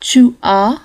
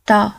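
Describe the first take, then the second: First: The two words are said as separate syllables. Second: The two words merge into one short syllable.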